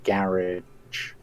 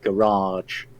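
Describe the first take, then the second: First: Garage is said with an English pronunciation. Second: Garage is said with a Canadian pronunciation. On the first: The speaker keeps their original speech. The speaker calls it right. "instead of garage" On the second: The speaker has adapted to local speech. The speaker calls it wrong. "I occasionally now say garage"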